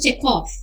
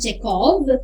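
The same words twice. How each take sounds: First: The name ends with an F sound. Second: The name ends with a V sound. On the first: The speaker calls it right. "it's Anton Chekhov, right? F" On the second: The speaker calls it wrong. "It's not Anton Chekhov"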